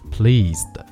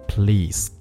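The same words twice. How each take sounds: First: The letter s is voiced as a z sound. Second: The letter s is voiceless as an s sound. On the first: The speaker calls it right. "这个发音不是念s，而是念z" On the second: The speaker calls it wrong. "不是pleased"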